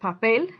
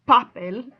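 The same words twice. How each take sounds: First: The stress is on the last syllable. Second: The stress is on the first syllable. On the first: The speaker calls it right. "Say more strongly the el than you do the pop" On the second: The speaker calls it wrong. "If you say papel, that's weird"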